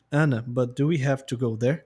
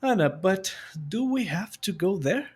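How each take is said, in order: First: Slow, flat, read off the page with no feeling; a lifeless textbook reading. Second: "Ana" lifted, the question rising like you actually mean it; spoken as a genuine question, a rising tune on "there"; with real intonation. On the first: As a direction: recite it like you're reading words on paper. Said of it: "Lendo ficaria assim". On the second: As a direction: ask it as if you're really in the scene. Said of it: "Agora eu vou me imaginar e aplicar a entonação". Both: Shown as a demonstration.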